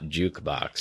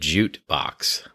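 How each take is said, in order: First: The first syllable ends with a k sound. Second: The first syllable ends with a t sound. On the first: The speaker calls it right. "not jukebox" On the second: The speaker calls it wrong. "for a whole number of years uh, uh, said jute box"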